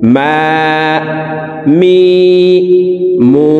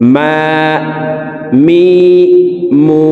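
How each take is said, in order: First: The vowels are drawn out and lengthened. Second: The vowels are drawn out and lengthened.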